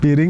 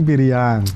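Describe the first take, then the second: First: The word ends with a plain 'ing' sound. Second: The word ends with an 'iang' sound. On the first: "Piring jadi piriang gitu" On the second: "ing itu akan menjadi iang"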